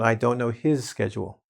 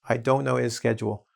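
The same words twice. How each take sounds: First: The h at the start of his is pronounced. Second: The h at the start of his is dropped. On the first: The speaker calls it wrong. "It's not" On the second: The speaker calls it right. "we delete these sounds"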